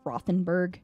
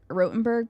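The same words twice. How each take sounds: First: The name is said as English spelling suggests. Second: The name is said with a German pronunciation. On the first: This is how English speakers would read it. "if you spell it out in English, they would say it's Rothenburg" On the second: This is how the locals say it. "people pronounced it Rothenburg"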